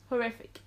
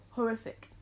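The two takes are said the same way.

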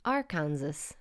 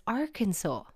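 First: "Arkansas" rhymed with Kansas, ar-KAN-zus; assumed pronunciation. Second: "Arkansas" as ARK-an-saw; correct pronunciation. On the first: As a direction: misread "Arkansas" as ar plus Kansas. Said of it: "you would assume". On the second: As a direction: end "Arkansas" on "saw", s silent. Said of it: "No, but it's". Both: Shown as a demonstration.

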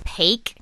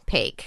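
First: Paik said as "pake" with a questioning rise; unsure name reading. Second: Paik said as "pake", falling and certain; settled name reading. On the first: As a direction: Paik pronounced like "pake", rising. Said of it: "Shall, shall I begin?". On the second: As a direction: Paik pronounced "pake" with a firm fall. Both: Shown as a demonstration.

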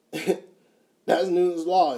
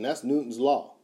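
First: Slow and laughing through the words; laughing repeat. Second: Said in the usual way. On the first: Real, not acted. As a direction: chuckle it out, stretched slowly.

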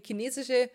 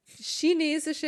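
First: Chinesische said "kinesische", hard k start. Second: Chinesische said "schinesische", sh start, slow; chinesische with sh sound. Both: Shown as a demonstration. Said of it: "ich will alle drei Aussprachen machen".

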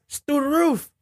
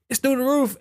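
First: Mock shocked squeal. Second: High exclaim. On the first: High-pitched exclaim on gas. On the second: Acted. Repeated take.

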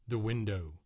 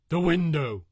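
First: Rising cry of horror; the start of a panicked scream; terrified cry. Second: High, full scream of horror; terrified scream. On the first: Narrator sees the creature. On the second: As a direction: scream as it breaks through the window. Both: A narrator's reading.

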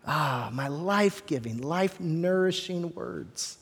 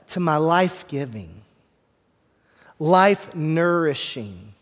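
First: A soft, drawn-out hush; soft, slow and hushed. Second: Said in the usual way. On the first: Shown as a demonstration. Pastor savoring God's words for the church, softly and slowly.

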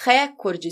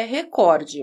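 First: Recorde stressed on the opening RÉ, open é; stress on first syllable. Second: Recorde stressed on the middle COR; stress on second syllable. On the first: Teacher showing the hypothetical accented form, stress on first syllable of recorde. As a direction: say recorde as RÉ-cor-de. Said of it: "Se a pronúncia da palavra fosse recorde". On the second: Teacher reporting the dictionary form, stress on second syllable of recorde. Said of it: "Não tem acento nenhum". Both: Shown as a demonstration.

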